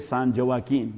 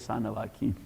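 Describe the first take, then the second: First: Joaquin begins with a hard English J sound. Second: Joaquin begins with a breathy H sound. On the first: The speaker calls it wrong. "they don't say San Joaquin" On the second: The speaker calls it right. "they say San Joaquin"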